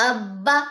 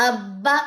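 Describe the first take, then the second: Both takes have the same delivery.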